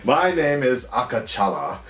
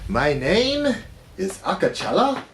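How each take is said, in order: First: It is spoken in the speaker's normal accent. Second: It is spoken in a put-on Wakandan accent.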